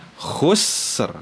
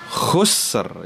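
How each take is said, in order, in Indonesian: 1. Kata ini berhenti pada dua huruf mati yang jelas. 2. Kata ini berhenti pada dua huruf mati yang jelas.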